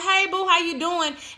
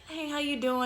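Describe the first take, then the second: First: The greeting sounds warm and genuine. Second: The greeting sounds fake and distant.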